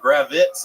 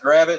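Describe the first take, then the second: First: The name ends with an added z sound. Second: The name ends with a plain t sound. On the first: The speaker calls it wrong. "they're adding like Z's on it" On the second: The speaker calls it right. "it's just Gravit, it's phonetically sound"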